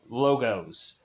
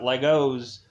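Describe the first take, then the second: First: The first vowel sounds like in 'low'. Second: The first vowel sounds like in 'leg'. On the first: The speaker calls it right. "like logos" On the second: The speaker calls it wrong. "Not Legos"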